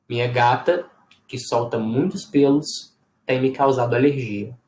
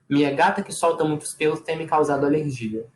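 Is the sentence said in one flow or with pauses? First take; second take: with pauses; one flow. First: There are pauses before and after the middle clause. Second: The sentence runs in one flow with no pauses. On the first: "dar uma paradinha antes e uma depois dessa informação" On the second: "ela pode vir direto num fluxo só de fala"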